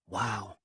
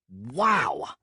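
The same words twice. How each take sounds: First: It is said softly. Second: It is said loudly.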